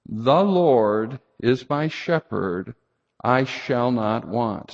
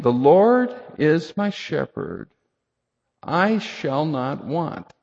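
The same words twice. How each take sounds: First: Slow recital of the verse, each phrase rising; scripture recital. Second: Slow, weighty reading of the verse; scripture quote. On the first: Pastor modelling the verse for the congregation to say, slowly. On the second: Pastor reciting the psalm to the congregation, slow and weighty. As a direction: let each word of the psalm land slowly. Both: Acted.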